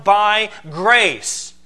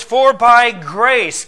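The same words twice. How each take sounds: First: "grace" weighted with a falling close; stress on by grace. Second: "by" hit hard and loud, grace drawn out slowly; stress on by grace. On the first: Preacher naming the Greek emphasis, stressing by grace. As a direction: land firmly on "grace". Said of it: "emphasis ... is emphatically upon". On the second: Preacher reading Ephesians, pounding by grace. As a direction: lean slow and loud on "by grace". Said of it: "emphasis ... is emphatically upon "by grace". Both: Shown as a demonstration.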